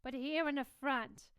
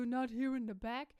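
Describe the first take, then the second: First: Forward, focused tone; front placement. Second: Open, backed tone; back placement. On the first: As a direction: voice aimed at the front of the mouth. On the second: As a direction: voice sitting back in the throat. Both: Shown as a demonstration.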